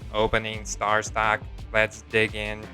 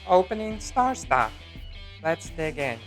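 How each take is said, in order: First: It is said in a robot voice. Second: It is said in his normal voice.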